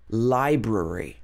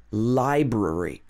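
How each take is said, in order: No difference in how they are said.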